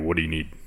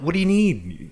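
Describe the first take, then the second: First: It is said in a grumpy, irritated voice. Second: It is said in a gentle, higher voice.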